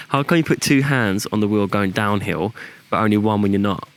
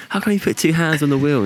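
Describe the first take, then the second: First: Said in the usual way. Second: Higher, giggling through the examiner's question; amused retelling of the examiner's question; laughing quote. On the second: Retold or imitated.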